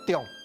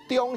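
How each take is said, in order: First: The syllable has a low falling tone. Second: The syllable has a high level tone. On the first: "中用的中，这吼是第三声啦" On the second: "中班是中是第一声"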